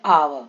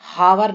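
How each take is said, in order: First: The word begins directly with a vowel. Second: The word begins with an h sound. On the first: The speaker calls it right. "जैसे आव" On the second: The speaker calls it wrong. "हावर नहीं पढ़ते इसको, बहुत सारे लोग इसको गलत पढ़ते हैं"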